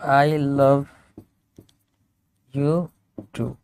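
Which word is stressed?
love. The word love carries the strongest stress. The speaker loves the person as well as other things. "ये इसको भी emphasise कर सकता है"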